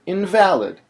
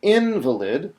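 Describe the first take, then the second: First: Invalid with stress on VAL, louder; "invalid" stressed on the second syllable, not valid. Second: Invalid with stress on IN, rising; "invalid" stressed on the first syllable, the sick person. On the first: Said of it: "which syllable I choose to emphasize". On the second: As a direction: say "invalid" as IN-va-lid. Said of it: "We could pronounce it". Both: Shown as a demonstration.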